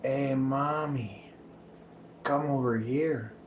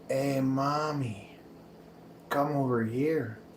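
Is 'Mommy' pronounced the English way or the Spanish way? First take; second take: Spanish; Spanish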